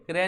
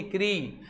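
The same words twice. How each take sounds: First: क्रे with an "eh" vowel; mistaken "kre". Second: क्री drawn out with an "ee" vowel; correct "kri". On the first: Teacher shows students the wrong reading, mistaken "kre". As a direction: say क्रे with "eh" in place of "ee". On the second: Teacher corrects the wrong reading for students, correct "kri". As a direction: say क्री as a clear "kree". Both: Shown as a demonstration. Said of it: "क्रे नहीं है".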